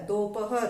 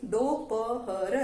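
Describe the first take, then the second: First: Said in the usual way. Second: दोपहर drawn out slowly, syllable by syllable; teacher sounding out दोपहर slowly for children. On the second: Shown as a demonstration. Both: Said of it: "इसको क्या बोलेंगे".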